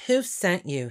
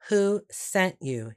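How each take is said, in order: First: Said in the usual way. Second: Slower, insistent repeat; slow down and push the question; Who sent you asked again slowly and firmly; pressing question. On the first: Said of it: "he asked". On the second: A narrator's reading. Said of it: "he asked again".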